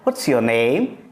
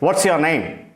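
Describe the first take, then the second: First: It is asked in a loving, affectionate tone. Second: It is asked in an angry tone.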